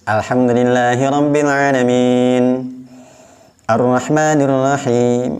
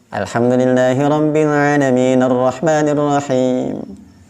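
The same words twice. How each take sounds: First: It stops with an audible new breath between phrases. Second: It runs straight on, final vowel sounded, no pause. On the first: This is a full stop, called waqf. "ada tarikan nafasnya" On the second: The verses are joined, called wasal. "diwasalkan saja. Harokat daripada ujung ayatnya dibaca"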